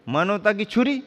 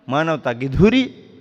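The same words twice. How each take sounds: First: छुरी lifted high in a questioning rise; indignant query on छुरी. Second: धुरी punched louder as the right word; correcting stress on धुरी. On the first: Author reading out the misprinted title, rising on छुरी. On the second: Author correcting the cover's title, stress on धुरी. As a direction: set the title straight, leaning on धुरी. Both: Retold or imitated. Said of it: "धुरी अलग होती है".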